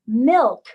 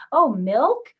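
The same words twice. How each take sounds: First: "milk" said loud with a big falling tune; emphatic falling "milk" for a toddler to copy; modeling with intonation. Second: "milk" swung up at the end as a question; higher, louder "milk", ending on a rise; rising question intonation. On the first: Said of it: "used a lot of intonation in your voice". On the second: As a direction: ask it only with the tune, "milk" going up. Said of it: "your voice going up at the end as a question". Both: Shown as a demonstration.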